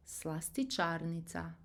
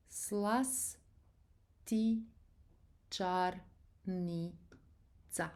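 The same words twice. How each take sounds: First: Said in the usual way. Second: Very slow, separated syllables. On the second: Shown as a demonstration. Teacher breaking down a long Croatian word for learners, syllable by syllable. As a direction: break the word into syllables, pausing between each.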